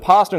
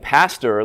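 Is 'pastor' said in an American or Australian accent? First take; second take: Australian; American. First: The final r is dropped, sounding like pasta. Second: The final r is clearly pronounced. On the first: "we make it sound like an Italian dish" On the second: "like the Americans do"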